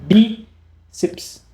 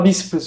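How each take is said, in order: First: It is said with a pause between syllables. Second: It is said smoothly with no pause between syllables. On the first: The speaker calls it right. "Você tem uma pausa fonética entre elas" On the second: The speaker calls it wrong. "você não fala bíceps junto"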